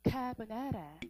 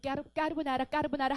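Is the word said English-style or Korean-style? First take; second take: English-style; Korean-style. First: It is said closer to the English way. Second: It is said the usual Korean way. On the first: The speaker calls it right. "발음을 제대로 알아주란 말이야" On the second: The speaker calls it wrong. "왜 우리 까르보나라 하잖아? 근데 까르보나라가 아니었어"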